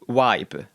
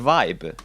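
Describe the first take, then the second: First: The word begins with a W sound. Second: The word begins with a V sound. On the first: The speaker calls it wrong. "I keep pronouncing my V's like we, like like vibe. Like that's not the correct one" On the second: The speaker calls it right. "It's a vibe"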